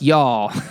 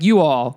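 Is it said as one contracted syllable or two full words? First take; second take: one syllable; two words. First: It is said as one contracted syllable. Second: It is said as two separate full words. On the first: "It doesn't sound right when I say y'all" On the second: "It doesn't even sound right when you say you all"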